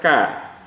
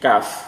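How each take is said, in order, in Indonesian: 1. Kata ini berakhir dengan vokal. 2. Kata ini berakhir dengan bunyi f. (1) "tidak kita baca ka" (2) "tapi kaf"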